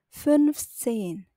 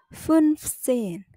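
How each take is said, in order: The two takes are said the same way.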